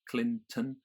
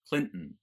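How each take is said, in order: First: The T is released clearly before the last syllable. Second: The T is held and released through the nose. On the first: "in my accent I pronounce the T" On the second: "in a general American"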